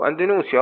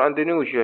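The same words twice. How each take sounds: First: إندونيسيا with an S sound near the end; S pronunciation. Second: إندونيسيا with a ZH sound near the end; ZH pronunciation. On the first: Teacher showing students one accepted way, إندونيسيا said with S. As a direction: say إندونيسيا as "an-di-NOO-sya". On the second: Teacher showing students the other accepted way, إندونيسيا said with ZH. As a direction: say إندونيسيا as "an-di-NOO-zha". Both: Shown as a demonstration. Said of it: "شلون ما تلفظها الفظها".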